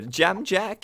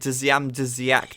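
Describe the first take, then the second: First: The name begins with a plain j sound. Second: The name begins with a dzy sound. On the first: This is the reported correct pronunciation. The speaker calls it right. "apparently, Jam Jack is the uh, pronunciation" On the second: This is how the speaker used to say it. The speaker calls it wrong. "That definitely looks like Dzyam Dzyak to me"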